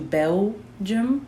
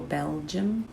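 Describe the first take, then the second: First: The middle 'ul' sound is dropped or weak. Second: The middle 'ul' sound is clearly said. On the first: The speaker calls it wrong. "we don't want to do Belgium" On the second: The speaker calls it right. "We'll be sure to get that ul in there"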